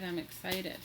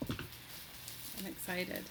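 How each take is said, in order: First: Said in the usual way. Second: Slow, breathy whisper; hushed, giddy whisper; whispered excitement. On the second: Real, not acted. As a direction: whisper it slowly to yourself, thrilled.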